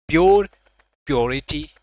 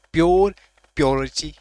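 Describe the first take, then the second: No difference in how they are said.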